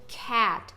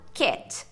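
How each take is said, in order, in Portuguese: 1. A vogal é um a aberto, mais longo. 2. A vogal é um e médio, mais curto. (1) "a vogal dessa palavra é o A" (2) "usando o E de Pelé"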